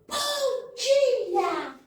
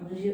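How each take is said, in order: First: It is said warmly and with real feeling. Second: It is said quickly and mechanically, without warmth.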